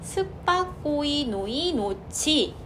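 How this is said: Every syllable is pronounced separately and evenly. The speaker calls it wrong. "한국식으로 발음을 할 때"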